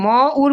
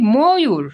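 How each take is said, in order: First: The vowels join with no 'y' glide. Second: A 'y' glide joins the two vowels. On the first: The speaker calls it wrong. "আমরা কিন্তু ম উর বলি না" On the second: The speaker calls it right. "বলি ময়ূর"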